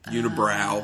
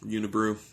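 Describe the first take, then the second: First: The last syllable rhymes with 'cow'. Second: The last syllable rhymes with 'true'. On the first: The speaker calls it wrong. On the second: The speaker calls it right.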